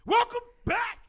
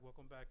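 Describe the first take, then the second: First: It is said with high energy. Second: It is said with low energy.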